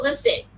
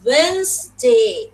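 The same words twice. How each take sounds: First: Said in the usual way. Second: "Wednesday" drawn out very slowly as WENZ-day; slow clear pronunciation. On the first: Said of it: "তুমি যদি বলতে থাকো". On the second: Shown as a demonstration. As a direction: model "Wednesday" in two long, clear syllables, d silent. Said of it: "clearly, loudly, intonation দিয়ে, slowly". (ধীরে, স্পষ্ট করে "Wednesday")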